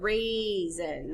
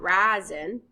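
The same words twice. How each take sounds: First: The first vowel is a long A sound. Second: The first vowel is a short A sound. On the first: The speaker calls it right. "you put a macron on the A because it says raisin" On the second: The speaker calls it wrong. "not raisin"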